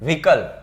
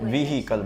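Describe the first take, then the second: First: The middle h sound is dropped. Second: The middle h sound is clearly pronounced. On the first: The speaker calls it right. "હ હળવો એવો થાય વિકલ" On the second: The speaker calls it wrong. "વિહિકલ બોલીએ છીએ આપણે"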